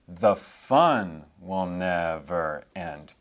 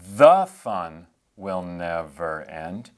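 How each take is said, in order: First: The stress falls on the word 'fun'. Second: The stress falls on the word 'the'. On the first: The speaker calls it right. "You'd say" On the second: The speaker calls it wrong. "you wouldn't say"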